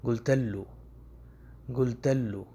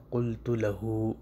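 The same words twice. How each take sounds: First: گلتلو run together with a g for the qaf; colloquial Arabic. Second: قلت لہو said slowly with a full qaf and every vowel; classical Arabic. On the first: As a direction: dialect گلتلو, all one word. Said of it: "عامیہ میں کس طرح بولا جاتا ہے". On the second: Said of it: "یہ اصل لفظ ہوتا ہے". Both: Shown as a demonstration.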